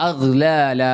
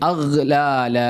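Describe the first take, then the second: Both takes have the same delivery.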